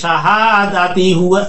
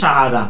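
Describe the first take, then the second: First: The word runs on into the next word. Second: The word ends and the voice stops. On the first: The reciter continues without pausing. "যদি না থামেন শাহাদাতি হুয়া" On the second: The reciter pauses at this word. "যদি থামেন শাহাদা"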